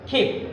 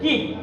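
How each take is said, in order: First: The first k sound has a strong puff of air. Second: The first k sound has no puff of air. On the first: The speaker calls it right. "কিপ না হয়ে উচ্চারণটা হবে ক্ষিপ" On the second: The speaker calls it wrong. "Generally আমরা এটাকে যদিও বলি কিপ"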